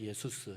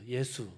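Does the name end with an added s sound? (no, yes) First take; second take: yes; no. First: The name ends with an extra s sound. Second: The name ends on a vowel, no s. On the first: This is the original native pronunciation. "원래 그 나라 본토 발음으로는 예수스입니다" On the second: This is the Korean rendering of the name. "우리말로 옮기면은 거의 본토 발음 그대로입니다"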